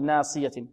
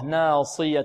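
First: The ص sound is light, not emphatic. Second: The ص sound is heavy and emphatic. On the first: The speaker calls it wrong. "ولا نقول ناصية" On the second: The speaker calls it right. "الصاد ماذا؟ مفخمة مطبقة"

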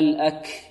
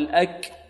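First: The final k is released with a puff of breath. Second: The final k is released with a small voiced sound. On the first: The speaker calls it right. "أين النفس الذي جرى؟ لا" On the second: The speaker calls it wrong. "بعض الطلبة يأتون بالصويت"

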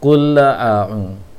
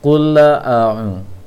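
Both takes have the same delivery.

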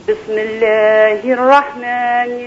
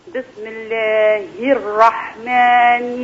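Both takes have the same delivery.

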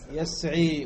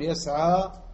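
First: The word ends in a long 'i' vowel. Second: The word ends in a long 'a' vowel. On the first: The speaker calls it wrong. "ولا تقول يسعي" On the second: The speaker calls it right. "فتقول يسعى"

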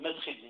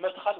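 First: The vowel after kh is not a. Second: The vowel after kh is an open a. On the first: The speaker calls it wrong. "ولا تقول مدخل" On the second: The speaker calls it right. "المفعل لا بد أن يكون مفتوحا مدخل، تقول مدخل"

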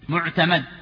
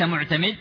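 First: The vowel before the final consonant is 'a'. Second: The vowel before the final consonant is 'i'. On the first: The speaker calls it right. "معتمد لفتح الميم" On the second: The speaker calls it wrong. "ليس معتمد"

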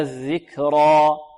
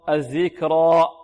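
First: The final vowel fades out as the breath ends. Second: The final vowel is cut off with a glottal stop. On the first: The speaker calls it right. "تنتهي بانتهاء الهواء" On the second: The speaker calls it wrong. "لا نختمها بهمزة، لا نقول"

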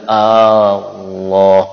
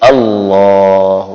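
First: The opening vowel is drawn out long. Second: The opening vowel is short. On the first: The speaker calls it wrong. "Bukan Allah. Tidak boleh Allah. Tidak boleh panjang" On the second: The speaker calls it right. "Jadi dia Allah"

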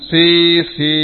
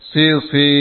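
First: The first vowel is drawn out long. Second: The first vowel is short and quick. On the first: The speaker calls it wrong. "jangan sisi, ini keliru" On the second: The speaker calls it right. "Shot yang pertama tidak ada tanda mat. Berarti bacaannya lebih cepat"

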